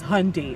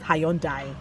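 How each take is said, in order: First: It uses the standard pronunciation of the name. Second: It uses the Nigerian pronunciation of the name. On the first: This is the name's proper pronunciation. The speaker calls it right. "the actual pronunciation is Hyundai" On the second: This is how people in one country say it. The speaker calls it wrong. "it's pronounced Hyundai in Nigeria"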